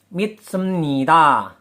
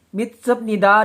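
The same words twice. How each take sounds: First: The s sound is tense and doubled. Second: The s sound is plain. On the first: This is how the word is actually pronounced. "sedangkan pelafalannya" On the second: This is how the word is written.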